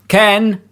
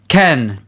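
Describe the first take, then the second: First: It is said in a harsh robotic voice. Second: It is said in a natural speaking voice.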